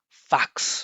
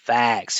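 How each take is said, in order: First: The vowel is flat, without resonant vibration. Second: The vowel is full and resonant with vibration. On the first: The speaker calls it wrong. "not highlighting the vowel sound with vibration" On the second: The speaker calls it right. "Hear the vibration there?"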